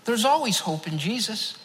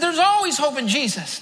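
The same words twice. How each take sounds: First: A man answering a panicked stranger with a gentle smile; smiling calm reply. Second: A man repeating himself firmly to a bewildered stranger; repeated firmly. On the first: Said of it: "I just smiled back at him and said". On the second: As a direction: say it again so he finally hears. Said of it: "I said". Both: Retold or imitated.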